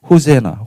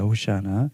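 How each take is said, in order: First: It is said as ho-se-na, the English form. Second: It is said as ho-shi-a-na, the Hebrew form. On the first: "영어로 또 번역하면은 호세나" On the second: "이 정확히 히브리어 발음은 호시아나입니다"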